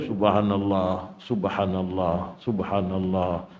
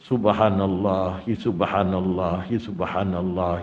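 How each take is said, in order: First: Each repetition stops with a pause. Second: The repetitions are joined without stopping.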